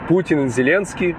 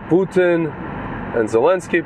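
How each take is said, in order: First: The names are said with a Russian pronunciation. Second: The names are said with an English pronunciation.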